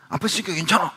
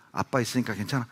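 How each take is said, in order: First: Put-on confident dad talking over crying kids; firm reassurance. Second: Soft asking tone, rising on 괜찮아; quiet comforting question to a crying daughter; gentle reassurance. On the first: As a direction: insist the child is safe, with 있으니까 pushed up. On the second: Retold or imitated. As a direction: coax a scared child with 아빠 있으니까 괜찮아, soft and rising. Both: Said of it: "제가 우리 딸들에게".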